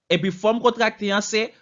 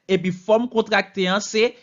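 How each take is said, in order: No difference in how they are said.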